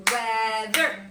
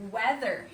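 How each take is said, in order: First: "Weather" loud, split into two beats, wea-ther; clapped-out syllables. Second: Said in the usual way. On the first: Shown as a demonstration. Teacher clapping syllables with the class, "Weather" broken as wea-ther. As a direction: clap out "Weather", one syllable per beat. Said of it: "we clap 'em out".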